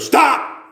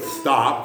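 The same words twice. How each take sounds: First: It is shouted loudly and forcefully. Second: It is said softly with a weak, lisping voice. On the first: It is a firm command that must be obeyed. "And he's usually twice that loud" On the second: It is a timid request that can be ignored. "I can't go, stop, because I don't lisp"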